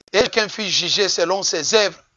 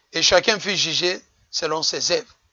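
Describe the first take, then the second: No difference in how they are said.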